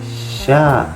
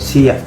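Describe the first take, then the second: First: It is said as one blended syllable, sha. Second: It is said as two separate syllables, si-a. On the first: The speaker calls it right. "Tapi dibacanya sha" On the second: The speaker calls it wrong. "bukan sia"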